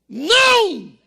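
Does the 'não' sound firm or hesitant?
firm. The no sounds firm, forceful and decisive. It is a real refusal. The speaker calls it right. "olha nos olhos dele, diga assim"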